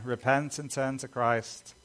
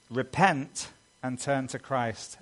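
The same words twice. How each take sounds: First: Emphatic repeat with Repent punched; emphasized. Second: Said in the usual way. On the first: Shown as a demonstration. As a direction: stress on Repent, leaning into the word. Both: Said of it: "Emphasize that again".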